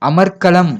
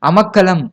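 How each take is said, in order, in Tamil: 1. 'kkalam'-க்கு முன் r ஒலி கேட்கிறது. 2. 'kkalam'-க்கு முன் r ஒலி கேட்கவில்லை.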